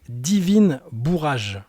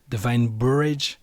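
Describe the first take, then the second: First: The name is pronounced with French sounds. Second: The name is pronounced with English sounds. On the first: "Donc je le prononce à la française" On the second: "mais peut-être que c'est Divine Bourrage"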